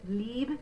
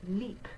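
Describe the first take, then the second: First: The word ends with a voiced B sound. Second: The word ends with a voiceless P sound. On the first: The speaker calls it wrong. "it looks like lieb" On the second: The speaker calls it right. "We're going to say that B like a P"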